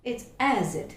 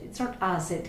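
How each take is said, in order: First: "acid" with a clear æ at the start; correct vowel. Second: "acid" with an open Malayali a instead of æ; wrong vowel. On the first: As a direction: model the right æ in "acid". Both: Shown as a demonstration.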